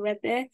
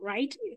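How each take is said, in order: First: It does not sound like the English word 'right'. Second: It sounds like the English word 'right'. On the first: The speaker calls it right. "It's called Rethe" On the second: The speaker calls it wrong. "It's not right, even though some people pronounce it as right"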